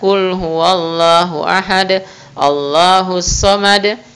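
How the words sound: The two verses are separated by a pause. "kita pisah"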